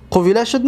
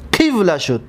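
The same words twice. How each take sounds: First: قویله said as quwila, the vowel still on the waw; mistaken form. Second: قیوله said as qiwla, i after q and the waw silent; corrected form. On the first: (قویله با واو متحرک، شکل نادرست) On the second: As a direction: say قیوله with the vowel moved onto the qaf. (قیوله با واو ساکن، شکل درست) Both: Shown as a demonstration. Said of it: "نه".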